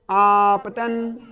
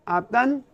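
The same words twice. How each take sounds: First: आपतन stretched very slowly, each syllable held; drawn-out term. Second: Said in the usual way. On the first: Shown as a demonstration. Teacher prompting the class with आपतन, stretched long. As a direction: draw out आपतन for the class to repeat. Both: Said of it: "उस बिंदु का नाम क्या होगा?".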